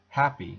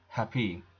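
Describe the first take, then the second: First: The stress is on the first syllable. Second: The stress is on the second syllable. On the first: The speaker calls it right. "you would say happy, ... the first syllable is stressed" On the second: The speaker calls it wrong. "not happy"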